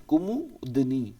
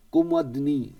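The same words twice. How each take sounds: First: कुमुदनी said slowly with a full u in the middle, ku-mu-di-ni; slow, careful spelling-out. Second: Said in the usual way. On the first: Shown as a demonstration. Teacher spelling कुमुदनी aloud slowly for students. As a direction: draw out every syllable of कुमुदनी.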